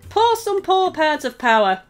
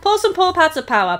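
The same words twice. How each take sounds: First: It is said at a normal speed. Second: It is said very fast.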